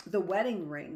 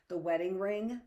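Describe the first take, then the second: First: "The wedding ring," said firm and louder with a falling end; "The wedding ring," as a flat settled statement; confirming tune. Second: "The wedding ring?" rising at the end like a question; "The wedding ring?" with a curious upward lilt; questioning tune. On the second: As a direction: ask it, lifting on "ring?". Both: A narrator's reading. Vivian asks, Molly confirms.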